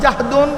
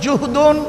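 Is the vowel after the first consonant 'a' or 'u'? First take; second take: a; u. First: The first vowel is an open 'a' sound. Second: The first vowel is a rounded 'u' sound. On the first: "বিফাথিল জিম" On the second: "ও জুম্মিহা"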